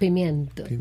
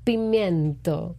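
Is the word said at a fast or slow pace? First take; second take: fast; slow. First: The word is said at normal speed. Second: The word is said slowly and drawn out.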